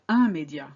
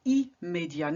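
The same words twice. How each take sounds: First: Immédiat mispronounced with a nasal "un" at the start; wrong nasal opening. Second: Immédiat starting with a clear "ee" and sounded m; correct "ee-m" opening. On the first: Teacher showing what not to say, wrong nasal opening. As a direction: say immédiat wrongly as "un-may-dya". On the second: Teacher contrasting right with wrong, clear "ee-m" opening. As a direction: say immédiat as French "ee-may-dya". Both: Shown as a demonstration. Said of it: "not immédiat".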